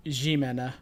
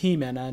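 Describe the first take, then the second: First: Jimena with a soft zh, "Zhimena"; wrong pronunciation. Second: Jimena with an H sound, "Himena"; correct pronunciation. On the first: Host showing viewers how not to say it, wrong pronunciation. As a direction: say Jimena as zhee-MEN-a, French-style J. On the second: Host correcting viewers on the animator's name, correct pronunciation. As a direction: say Jimena as hee-MEN-a, breathy J. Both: Shown as a demonstration. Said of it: "it's pronounced Jimena, not Jimena".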